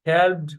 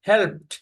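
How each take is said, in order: First: The word ends with a d sound. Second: The word ends with a t sound. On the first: The speaker calls it wrong. "এজন্য হেল্পড হবে না" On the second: The speaker calls it right. "উচ্চারণ হবে হেল্পড"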